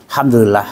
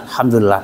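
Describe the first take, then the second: Both takes have the same delivery.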